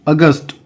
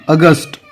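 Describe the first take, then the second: No difference in how they are said.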